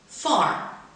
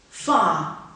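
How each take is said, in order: First: It is said in an American accent. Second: It is said in a British accent. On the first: "second in general American" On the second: "first in received pronunciation"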